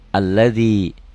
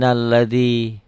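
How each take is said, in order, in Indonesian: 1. Ia berdiri sendiri dan diawali bunyi 'a'. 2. Ia menyambung dengan kata sebelumnya tanpa vokal awal. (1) "kalau enggak disambung ini berbunyi a" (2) "apabila disambung tidak berbunyi"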